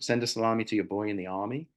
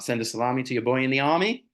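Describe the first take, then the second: First: It is said in a plain, unmarked accent. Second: It is said in an outer-borough New York accent.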